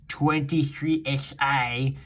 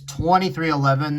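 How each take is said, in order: First: The ending is said as the letters X, I. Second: The ending is said as the number eleven. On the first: The speaker calls it wrong. "not twenty-three X I. I fucking hate people that say it like that" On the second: The speaker calls it right. "It's twenty-three eleven"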